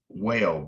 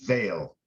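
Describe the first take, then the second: First: It begins with a rounded W sound. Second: It begins with a buzzing V sound. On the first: "most of the time we see this, we would say that's a" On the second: "they rendered it as a V"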